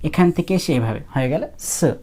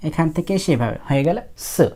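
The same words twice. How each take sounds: The two takes are said the same way.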